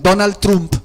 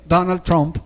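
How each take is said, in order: First: The name is said with Spanish pronunciation. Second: The name is said with English pronunciation.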